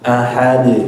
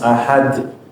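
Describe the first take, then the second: First: The final d ends plainly without any hiss. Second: The final d ends with a breathy hiss. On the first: The speaker calls it right. "dia miring ahad" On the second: The speaker calls it wrong. "ada desisan suara atau hamas"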